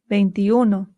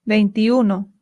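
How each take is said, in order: The two takes are said the same way.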